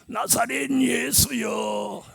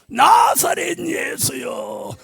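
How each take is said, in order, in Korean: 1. 부르는 소리가 보통 크기예요. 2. 부르는 소리가 더 크고 높아요.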